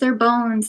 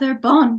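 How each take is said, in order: First: Bones is said with the normal English sound. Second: Bones is said like the French word bon.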